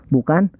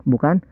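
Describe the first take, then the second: The two takes are said the same way.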